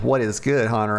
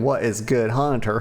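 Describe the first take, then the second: First: There is a pause before Hunter. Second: Good Hunter is said as one name.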